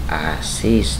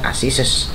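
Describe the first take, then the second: First: No extra syllable is added at the end. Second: An extra syllable is added at the end. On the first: The speaker calls it right. "cukup dibaca Asis tetap" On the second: The speaker calls it wrong. "jangan dibaca Asises"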